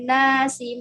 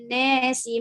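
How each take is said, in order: First: The vowel before s is an open a. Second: The vowel before s leans toward e. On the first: This is the reading of another transmitter. "fathah alif alif sebelum sin" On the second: This is the reading of one transmitter. "alif sin dibaca al-imalah al-kubra"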